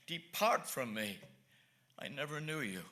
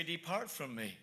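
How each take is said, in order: First: A lower, slower, solemn Lord turning people away; lower, slower voice of Christ. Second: Said in the usual way. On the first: Retold or imitated. Preacher voicing the Lord's judgment on sinners, lower and slower. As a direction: draw it out low and slow as the Lord's verdict. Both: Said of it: "he's gonna say".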